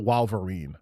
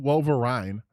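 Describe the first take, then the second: First: "Wolverine" as WAHL-ver-een, ending like "seen"; rejected mispronunciation. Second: "Wolverine" as WOHL-ver-ine, ending like "mine"; acceptable mispronunciation. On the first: Retold or imitated. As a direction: open "Wolverine" with an AH vowel, WAHL. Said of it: "I don't know what accent that is". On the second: Shown as a demonstration. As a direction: end "Wolverine" on a long EYE-n sound. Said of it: "not Wolverine".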